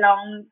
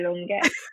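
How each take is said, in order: First: The surname sounds like the English word long. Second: The surname is said in its native form. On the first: This is the everyday form used in London. "when I say it here in my everyday life in London, I say" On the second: This is how the name is actually said. "but my name is actually Fisayo Longe"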